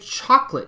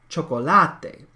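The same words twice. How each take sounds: First: It is said with English pronunciation. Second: It is said with Spanish pronunciation. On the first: The speaker calls it wrong. "you don't say chocolate" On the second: The speaker calls it right. "in Spanish, you say chocolate"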